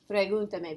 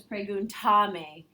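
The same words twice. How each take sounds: First: "Pregúntame" with the accent on GUN; stress on third-to-last syllable. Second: "preguntame" with a long, stressed TA; stress shifted to TA. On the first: Teacher models the original sound, "Pregúntame" stressed on GUN. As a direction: hit GUN in "Pregúntame", letting "tame" fall away. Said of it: "The third to last syllable has to be accented". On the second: Teacher shows the misplaced accent, "preguntame" stressed on TA. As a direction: wrongly lean on TA in "preguntame", drawing it out. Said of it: "If by adding those pronouns, it becomes preguntame".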